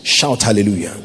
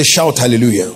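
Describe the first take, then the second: First: Said in the usual way. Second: Firmer, stronger repeated call; insistent call. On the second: Real, not acted. Preacher repeats call to congregation, insistent. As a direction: demand the response with more force. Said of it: "I say".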